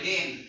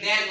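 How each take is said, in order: First: The vowel sounds like the one in 'bed'. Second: The vowel sounds like the one in 'bad'. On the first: The speaker calls it right. "কি বলি ডেন" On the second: The speaker calls it wrong. "এখানে কিন্তু ড্যান বলি না"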